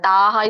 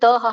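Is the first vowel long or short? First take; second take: long; short. First: The first vowel is held long. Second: The first vowel is kept short. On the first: The speaker calls it right. "ಒಟ್ಟು ಎಂಡಿಗೆ ಮಾತ್ರ ತಾಹ ಇದೆ" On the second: The speaker calls it wrong. "ತಹ ಹೇಳಿದ್ರಿ"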